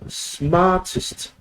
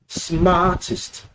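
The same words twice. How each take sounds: Both takes have the same delivery.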